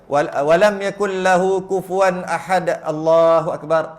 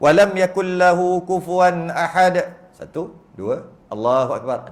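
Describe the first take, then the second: First: Allahu akbar follows straight on without any pause. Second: A pause of two counts comes before Allahu akbar. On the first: The speaker calls it wrong. "janganlah buat gitu" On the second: The speaker calls it right. "tunggu sekejap"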